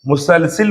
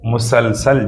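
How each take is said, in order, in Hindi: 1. आख़िरी अक्षर 'i' स्वर से बोला जाता है। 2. आख़िरी अक्षर 'a' स्वर से बोला जाता है। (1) "बहुत से लोगों को मैंने मुसलसिल बोलते हुए सुना है, जो गलत है।" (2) "क्या बोलना चाहिए?"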